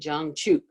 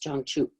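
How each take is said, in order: First: The final syllable is said fully and heavily. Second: The final syllable is said very lightly. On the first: The speaker calls it wrong. "I didn't say" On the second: The speaker calls it right. "The ending syllable is very light"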